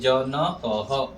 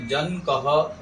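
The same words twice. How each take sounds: First: The middle n has a full vowel after it. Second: The middle n has no vowel after it. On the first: The speaker calls it right. "न को पूरा बोलेंगे" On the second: The speaker calls it wrong. "ऐसे नहीं बोलेंगे। न को हलंत नहीं करेंगे"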